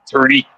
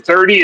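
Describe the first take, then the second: First: THIRTY said as "turty", Newfie style; Newfie pronunciation. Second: Said in the usual way. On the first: Shown as a demonstration. Showing friends the Newfie accent, THIRTY as "turty". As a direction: harden the TH of THIRTY to a plain T. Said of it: "lot of missing letters in the middle of words". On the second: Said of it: "if you've never heard a Newfie accent".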